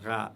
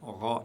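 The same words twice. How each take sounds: First: The consonant is pronounced light and thin. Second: The consonant is pronounced heavy and deep. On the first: The speaker calls it wrong. "et non pas ra" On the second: The speaker calls it right. "est prononcé toujours lourdement"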